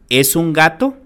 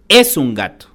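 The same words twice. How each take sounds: First: It is said with question intonation. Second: It is said with exclamatory intonation. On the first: It asks whether it is a cat. "la oración interrogativa" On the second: It expresses surprise that it is a cat. "la oración exclamativa"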